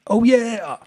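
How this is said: It is said in an upbeat, cheerful way.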